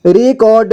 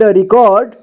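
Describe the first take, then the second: First: रिकॉर्ड as रि-कॉ-र्ड; syllable by syllable. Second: Said in the usual way. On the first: Shown as a demonstration. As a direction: sound out रिकॉर्ड part by part. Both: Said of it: "एक ही बार में पढ़ेंगे".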